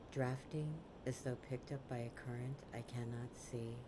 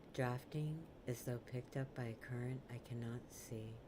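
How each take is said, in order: The two takes are said the same way.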